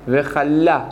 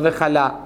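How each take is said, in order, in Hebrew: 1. צליל ה-L נאמר ארוך וכפול. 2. צליל ה-L קצר ויחיד. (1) "משמח חתן וחלה" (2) "לא וחלה. חלה זה כליה"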